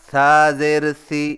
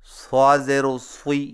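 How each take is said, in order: First: The vowel is said with unrounded lips. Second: The vowel is said with rounded lips. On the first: The speaker calls it right. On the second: The speaker calls it wrong.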